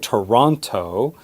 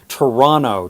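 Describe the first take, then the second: First: The T after the N is clearly pronounced. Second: The T after the N is dropped. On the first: "We don't say Toronto" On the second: "Did you hear the way I just said my hometown?"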